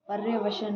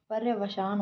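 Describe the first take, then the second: First: पर्यवसन ending short "-san"; पर्यवसन with a short a before the n; wrong vowel. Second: पर्यवसान ending long "-saan"; पर्यवसान with a long aa before the n; correct vowel. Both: Shown as a demonstration. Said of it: "पर्यवसान होता है".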